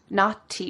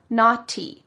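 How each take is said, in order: First: The middle consonant is a clear T. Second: The same.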